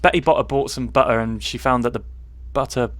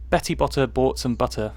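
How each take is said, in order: First: Cornish accent on "Betty Botter bought some butter"; own Cornish accent. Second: Posh British pronunciation of "Betty Botter"; careful posh accent on "Betty Botter bought some butter"; too posh. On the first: Shown as a demonstration. Showing how it sounds at home, Cornish accent. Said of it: "if I did it in my accent". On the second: Real, not acted. Reading a tongue twister, way too posh British accent. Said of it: "I'm pronouncing it way too posh for me".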